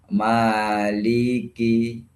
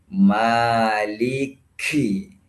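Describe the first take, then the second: First: The k is plain, without an extra puff. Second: The k is released with a strong puff of air. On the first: The speaker calls it right. "jadi biasa aja" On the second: The speaker calls it wrong. "kafnya jangan mengutamakan hamsnya"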